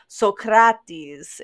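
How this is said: The name is said with a modern Greek pronunciation.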